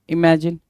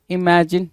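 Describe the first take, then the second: No difference in how they are said.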